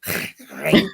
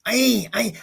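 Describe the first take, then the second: First: "Ain" forced from the throat; loud, throaty "Ain"; strained Arabic attempt. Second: "Ain" pitched high by a learner; awkward, raised "Ain, Ain"; funny-sounding attempt. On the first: Learner retrying Arabic, guttural forced "Ain". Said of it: "Sounds like I'm being". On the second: Learner trying Arabic, high awkward "Ain". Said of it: "it sounded funny".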